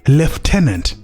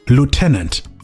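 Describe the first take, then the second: First: It is said with the British pronunciation. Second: It is said with the American pronunciation. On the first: "the British pronounce it as" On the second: "the Americans pronounce this word as"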